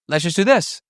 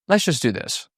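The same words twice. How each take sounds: First: The tone sounds pushy rather than reasonable. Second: The tone sounds calm, fair and reasonable. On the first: The speaker calls it wrong. "It's not" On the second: The speaker calls it right. "It's a very reasonable tonality"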